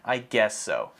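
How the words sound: It is said with a flat, unenthusiastic tone. The speaker calls it right. "I guess so really expresses that you're not excited"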